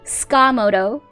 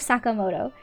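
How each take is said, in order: First: The first vowel is dropped, starting with ska. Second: The first syllable keeps its full vowel sound. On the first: The speaker calls it wrong. "They kept on calling him Skamoto. Ska" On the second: The speaker calls it right. "I wish they would just go Sakamoto. That's like not correct, but at least like the emphasis on the syllables are decent"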